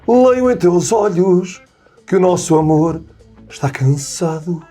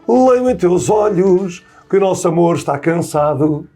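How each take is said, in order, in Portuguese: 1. A frase é dita com uma emoção cansada e sincera. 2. A frase é dita sem muita emoção. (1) "Eu gosto de dizer" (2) "muita gente canta este poema e diz assim"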